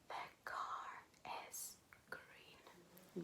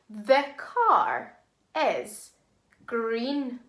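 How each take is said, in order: First: It is said in a whisper. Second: It is said in a normal voice.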